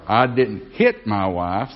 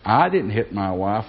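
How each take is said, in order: First: The stress is on the word hit. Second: The stress is on the word I.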